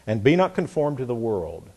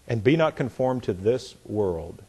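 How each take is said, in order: First: Said in the usual way. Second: A pause between "this" and "world"; slowing on THIS WORLD. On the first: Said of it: "let me do it again". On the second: Shown as a demonstration. Preacher repeats the verse for listeners, slowing down on "this world". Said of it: "I slowed down".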